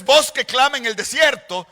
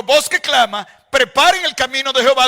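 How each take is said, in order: First: "Voz que clama en el desierto" unbroken; joined phrasing, stress on voz; wrong phrasing. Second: Loud, "Voz que clama", then a break; "Voz que clama" set apart, loud; pause after clama. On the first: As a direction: read it through with no pause. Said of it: "de modo que no es". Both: Shown as a demonstration.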